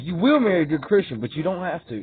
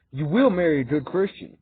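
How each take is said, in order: First: Imitated decree with a big stress on WILL; firm, then permissive. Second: Said in the usual way. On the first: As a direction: lean hard on WILL, let "but you don't have to" drop. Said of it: "That's how he said it". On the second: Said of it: "he said it".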